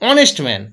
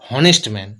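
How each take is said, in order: First: Honest starts directly with a vowel sound. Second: Honest starts with an audible h sound. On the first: The speaker calls it right. "এইচ এর উচ্চারণ হচ্ছে না" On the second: The speaker calls it wrong. "আমরা কেউ বলি না হনেস্ট man"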